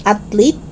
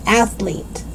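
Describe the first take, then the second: First: "athlete" as "at-leet"; hard T stop in "athlete". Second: "athlete" with soft TH; tongue out mid "athlete"; TH sound. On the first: Teacher showing learners the mistake, "athlete" with T. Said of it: "It's not athlete". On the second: Teacher correcting learners, "athlete" with clear TH. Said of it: "it's athlete". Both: Shown as a demonstration.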